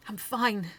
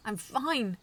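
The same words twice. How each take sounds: First: Growled. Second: Growled louder. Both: A narrator's reading. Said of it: "I growled".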